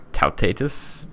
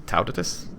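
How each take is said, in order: First: Tautatus as tow-TAY-tus; Tautatus, tentatively as tow-TAY-tus; alternative pronunciation. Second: Tautatus as TOW-tuh-tus; Tautatus, a softer second try as TOW-tuh-tus; alternative pronunciation. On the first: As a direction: say Tautatus with a long AY, stressed in the middle. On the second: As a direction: say Tautatus with stress up front and a short middle vowel. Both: Real, not acted. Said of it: "however you say that".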